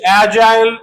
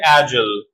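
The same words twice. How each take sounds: First: The last syllable has a full 'eye' vowel. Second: The last syllable is reduced, without 'eye'.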